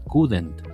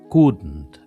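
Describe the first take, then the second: First: An extra e vowel is inserted in the word. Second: The consonants run together with no added vowel. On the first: The speaker calls it wrong. "tendemos a decir couldn't, a ponerle una E" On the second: The speaker calls it right. "aprende a pronunciarla couldn't"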